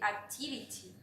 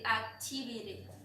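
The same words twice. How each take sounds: First: It is said in a British accent. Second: It is said in an American accent. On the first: "and in British" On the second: "In American English"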